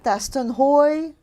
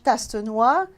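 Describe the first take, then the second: First: The name is said with an American pronunciation. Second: The name is said with a French pronunciation. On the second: "Tas in French"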